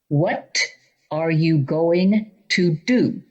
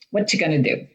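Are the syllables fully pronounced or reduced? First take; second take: fully pronounced; reduced. First: Every syllable is clearly and fully pronounced. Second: Syllables are swallowed and run together. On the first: The speaker calls it right. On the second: The speaker calls it wrong.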